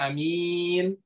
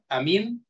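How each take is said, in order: First: The first vowel is short, the second long. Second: Both vowels are short. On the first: It means honest. "a-nya pendek, mimnya panjang" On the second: It means safe. "hamzahnya tidak ada mad, mimnya tidak ada mad"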